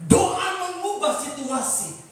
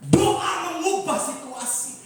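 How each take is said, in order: Both takes have the same delivery.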